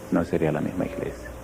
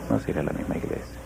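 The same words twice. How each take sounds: First: Low, soft settled reply; quiet answer. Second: Whispered, low and very soft. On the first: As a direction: let the answer drop down softly. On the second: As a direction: breathe the line as a whisper. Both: Acted. Repeated answer, second whispered.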